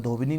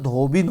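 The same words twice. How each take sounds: First: Said in the usual way. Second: धोबिन ending on n, no final vowel; correct form. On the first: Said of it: "नहीं होता". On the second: Shown as a demonstration. Teacher giving students the right word, correct ending. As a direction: stress धोबिन and stop at the n. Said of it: "धोबिन होता है".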